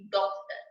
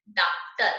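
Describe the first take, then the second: First: डॉक्टर with a rounded ऑ, between आ and ओ; with chandra. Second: डॉक्टर read as डाक्टर, with plain आ; without chandra. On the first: Teacher showing डॉक्टर read with chandra's rounded vowel. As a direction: round the lips on "dok" in डॉक्टर. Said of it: "ओ की ध्वनि आएगी". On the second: Teacher reading डॉक्टर as written without chandra. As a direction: open the first vowel of डॉक्टर to "daak". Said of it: "जैसे लिखा हुआ है". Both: Shown as a demonstration.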